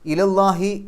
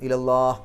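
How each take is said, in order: First: The final h is followed by an i vowel. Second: The phrase ends on a bare h sound. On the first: The recitation continues without stopping. "നിർത്താതെ കൂട്ടി ഓതലാണ് ഏറ്റവും ഉത്തമം" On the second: The recitation stops here. "അവസാനത്തെ ഹാന് സുക്കൂനിടും"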